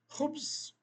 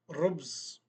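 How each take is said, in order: First: The word begins with a breathy H-like sound. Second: The word begins with an R sound. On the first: The speaker calls it right. "Essa letra, quase no mundo todo, ela representa a letra H" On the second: The speaker calls it wrong. "Se você fala Rubz, ninguém vai entender nada"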